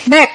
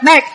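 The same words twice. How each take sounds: First: "Đét" ending in an audible puff of T; released final T. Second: "đét" cut off with no audible final consonant; dropped final consonant. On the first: Teacher modelling for learners, "Đét" with a sounded final T. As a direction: finish "Đét" with a crisp released T. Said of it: "âm thơ về sau". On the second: Teacher showing learners' usual slip, "đét" without its ending. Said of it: "không ai biết đét gì phải không". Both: Shown as a demonstration.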